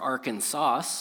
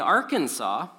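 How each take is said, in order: First: It is pronounced the way it's spelled. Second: It is not pronounced the way it's spelled.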